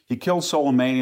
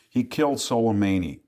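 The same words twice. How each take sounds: First: Killed pushed higher and louder; stress on killed. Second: Said in the usual way. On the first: Real, not acted. Repeats the fact to the interviewer, emphatic stress on killed. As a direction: hit the word killed hard on the repeat.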